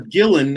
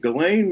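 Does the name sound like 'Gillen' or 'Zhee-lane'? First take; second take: Gillen; Zhee-lane. First: The name is said like 'Gillen'. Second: The name is said in its usual form.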